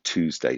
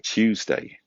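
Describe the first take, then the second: First: Tuesday is said with a non-British pronunciation. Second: Tuesday is said with a British English pronunciation. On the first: "instead of Tuesday" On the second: "In England, we say Tuesday"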